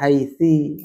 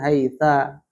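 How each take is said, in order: First: The word ends with an i vowel. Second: The word ends with an a vowel. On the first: "Gak bisa dibaca haitsi" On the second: "ataupun haitsa"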